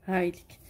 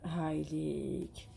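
First: Said in the usual way. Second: Slow and softer, drawn out; the teacher's slow softer model word; drawn-out demo. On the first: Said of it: "شوفوها". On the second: Shown as a demonstration. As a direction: draw the word out gently for the class. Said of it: "ونزيدو له".

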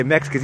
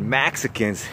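First: Said in the usual way. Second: "Mexicans" with an open a, MAK-suh-kuns; imitating a caller saying "Mexicans" as MAK-suh-kuns; mocking pronunciation. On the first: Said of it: "he said Mexicans". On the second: Shown as a demonstration. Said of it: "he didn't say Mexicans".

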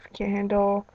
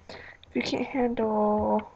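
First: Said in the usual way. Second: Slow breathy whisper on "If you can't handle"; secretive slow whisper; whispered slowly. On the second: Shown as a demonstration. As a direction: drop to a slow hush.

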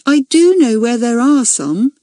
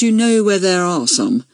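First: "do" pitched up and stressed. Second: Said in the usual way. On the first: A narrator's reading. Accused girl admitting she knows, "do" stressed high. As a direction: concede it, leaning on "do".

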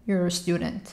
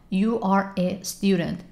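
First: Quick natural contraction; contracted quickly. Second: Slow uncontracted words. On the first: Teacher modeling the contracted form. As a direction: blend You're a into one beat. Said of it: "مخفف کردم". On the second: Teacher showing the slow full form. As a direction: say every word apart slowly. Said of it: "یا". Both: Shown as a demonstration.

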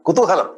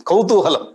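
First: Kutuhalam with a plain short ku- and a clear middle "ha"; corrected pronunciation. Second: Kautuhalam with an aspirated k and "ou": khou-tuhalam; wrong pronunciation. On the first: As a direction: Kutuhalam said right: ku-tu-ha-lam, no aspiration. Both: Shown as a demonstration.

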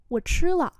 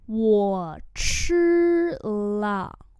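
First: Said in the usual way. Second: Each word stretched and separate; slow model reading. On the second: Shown as a demonstration. Teacher modelling "I have eaten" for learners, slowly. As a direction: sound it out word by word.

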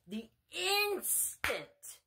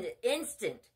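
First: "instant" drawn out very slowly and pitched high; stress on instant. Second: Said in the usual way. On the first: Real, not acted. Preacher stressing how fast they pray, "instant" stretched high. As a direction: stretch the first syllable of "instant" for emphasis. Repeats word for emphasis.

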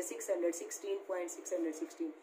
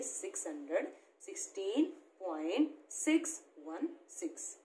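First: Brisk run-through of the wrong reading, "point six hundred sixteen" read as one number after the point; wrong reading demo. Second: After the point read digit by digit, "six one six" as separate digits; correct reading demo. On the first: Teacher shows children the wrong way, reading "point six hundred sixteen" as one whole number. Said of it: "ऐसे नहीं पढ़ेंगे".

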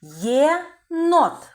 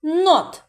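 First: Єнот spoken louder and stretched for analysis; sound analysis. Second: Єнот split into syllables, louder and higher; syllable count. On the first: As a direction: say єнот slowly and clearly for the class. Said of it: "звуковий аналіз слова". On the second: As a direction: chant Є-нот by syllables. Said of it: "скільки складів". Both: Shown as a demonstration.

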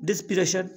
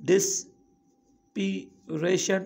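First: Said in the usual way. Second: ڊسپيريشن in three slow, separated chunks; long pauses inside ڊسپيريشن, each part on its own; syllable by syllable. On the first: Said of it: "پرونائونسيئيشن easy ٿي ويندي آهي". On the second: Shown as a demonstration. Teacher showing learners the syllables, slowly one by one. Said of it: "ٽي syllabus ٺهي آهي".

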